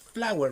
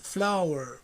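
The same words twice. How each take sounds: First: The word is said with a Spanish pronunciation. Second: The word is said with an English pronunciation. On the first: The speaker calls it wrong. "it's not flower. Flower is the Spanish pronunciation" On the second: The speaker calls it right. "Please, it's flower"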